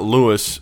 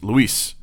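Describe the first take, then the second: First: The name is said the English way, like Lewis. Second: The name is said the Spanish way, like Luis. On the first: The speaker calls it wrong. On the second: The speaker calls it right. "it's Luis"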